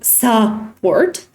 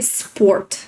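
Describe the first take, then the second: First: The first vowel is fully pronounced. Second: The first vowel is nearly dropped. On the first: The speaker calls it wrong. "you don't say support" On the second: The speaker calls it right. "you say sport"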